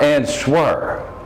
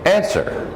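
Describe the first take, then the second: First: It is said with a W sound. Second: It is said without a W sound. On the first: The speaker calls it wrong. "Not answer" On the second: The speaker calls it right. "answer is the pronunciation"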